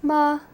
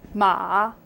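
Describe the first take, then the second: First: It is said with the level first tone. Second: It is said with the third tone. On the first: "the first tone, which is more like a straight"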